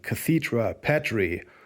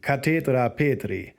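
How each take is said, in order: First: It is pronounced in a plain English way. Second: It is pronounced in a more Latin way.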